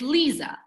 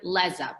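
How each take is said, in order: First: The first vowel sounds like 'ee'. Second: The first vowel sounds like 'eh'. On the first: The speaker calls it right. "but it's Lisa" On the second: The speaker calls it wrong. "Everyone wants to pronounce it Leza because with an E"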